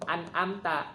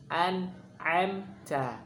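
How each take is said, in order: First: "an'amta" with a plain glottal stop; hamzah mistake. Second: Slow "An'amta" with a throaty ain; ain version. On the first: Teacher imitates the mistake. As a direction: say the hamzah as the error. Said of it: "bukan an'amta". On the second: Teacher demonstrates the ain. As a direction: squeeze the ain. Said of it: "yang kedua itu ain dengan ta". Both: Shown as a demonstration.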